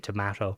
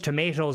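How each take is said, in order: First: It is said with a British accent. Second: It is said with an American accent.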